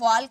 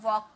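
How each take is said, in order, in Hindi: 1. L की ध्वनि बोली जाती है। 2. L की ध्वनि मौन रहती है। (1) "ऐसे वॉल्क नहीं" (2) "एल साइलेंट होता है, ऐसे वॉक पढ़ते हैं"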